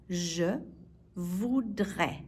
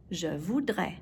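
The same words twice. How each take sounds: First: "Je", pause, then "voudrais"; word by word. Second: Said in the usual way. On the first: Shown as a demonstration. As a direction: split Je voudrais slowly for learners. Teacher breaks phrase up for learners.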